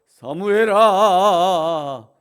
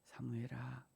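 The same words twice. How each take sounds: First: The name is called in a grand, commanding voice. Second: The name is called in a soft, warm voice. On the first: The caller is awesome and holy. The speaker calls it wrong. "거룩하고 위험에 찬 목소리로" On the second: The caller is tender so the child is not startled. The speaker calls it right. "다정다감하고 따뜻한 목소리로"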